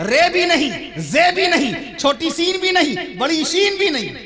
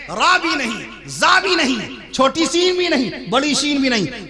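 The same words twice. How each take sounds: First: High preacher's call, "رے" and "زے" with ay; Urdu letter names. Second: High preacher's call, "را" and "زا" with aa; Arabic letter names. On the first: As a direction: call "رے", "زے" as ray, zay, pitched high. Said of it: "ریزے Urdu ہے". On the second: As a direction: call "را", "زا" as raa, zaa, pitched high. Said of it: "یہ قرآن مجید کے حروف ہیں". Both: Shown as a demonstration.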